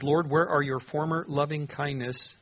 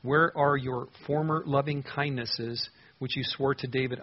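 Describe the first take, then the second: First: Slow, leaning on where; pleading question. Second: Even slower, stretched where; slower pleading question. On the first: Pastor reads the psalm's key question, slow and pleading. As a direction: ask it slowly as a heartfelt plea. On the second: Pastor repeats the key question even slower, pleading. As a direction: draw out the plea. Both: Acted. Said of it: "the key question of the entire psalm".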